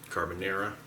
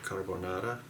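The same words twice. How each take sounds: First: It is said in an American accent. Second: It is said in an Italian-style accent. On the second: "Forgive me if I don't pronounce it right"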